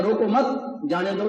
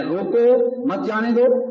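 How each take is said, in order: First: روکو مت joined and raised, pause, then جانے دو; pause after مت. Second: Slow and high, روکو set apart from مت جانے دو; stress on روکو. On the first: Preacher shows it meaning let him go, pause after مت. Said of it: "تو پھر جانے دو". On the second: Preacher shows it meaning stop that man, stress on روکو. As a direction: raise روکو firmly, then slowly مت جانے دو. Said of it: "تو اس کا مطلب اس بندے کو روکو". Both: Shown as a demonstration.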